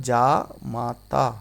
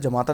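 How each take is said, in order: First: जा माता drawn out slowly, long aa in जा; correct long vowel. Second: जमाता with a short, quick first a; wrong short vowel. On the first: Teacher correcting for students, slow long-vowelled जा माता. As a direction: stretch जा माता into jaa... maa-taa. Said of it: "क्या होता है?". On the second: Teacher quoting the wrong spelling, short first vowel in जमाता. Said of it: "जमाता नहीं होता". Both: Shown as a demonstration.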